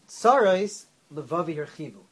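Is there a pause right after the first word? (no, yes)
yes. There is a pause after the first word. Suffering has widened my heart. "He read it like this. Tzoris, comma, Levavi hirchivu"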